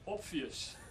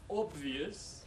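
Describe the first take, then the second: First: The consonant after the o is a voiceless p. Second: The consonant after the o is a voiced b. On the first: "so we devoice the B to a P" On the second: "he'll say not obvious"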